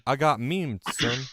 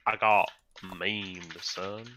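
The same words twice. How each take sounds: First: Put-on southern accent. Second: Slow, drawn-out southern drawl; southern accent. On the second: Pretend. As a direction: stretch it like a southern boy. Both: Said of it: "Fucking southern ass accent".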